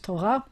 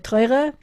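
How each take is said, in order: First: It is said with a Sephardic Hebrew pronunciation. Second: It is said with an Ashkenazi Hebrew pronunciation.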